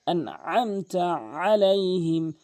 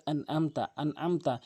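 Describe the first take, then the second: First: "আনআমতা আলাইহিম" slow with throaty ain; correct AIN. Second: "আনআমতা" with plain glottal a; mistaken hamza. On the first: Teacher models correctly, "আনআমতা" with pressed ain. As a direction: chant "আনআমতা", squeezing mid-throat. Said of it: "আইনের জায়গায়". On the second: Teacher shows the mistake, "আনআমতা" with hamza. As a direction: say "আনআমতা" unchanted, no pressure. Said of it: "আইনের জায়গায় হামজা এনে". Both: Shown as a demonstration.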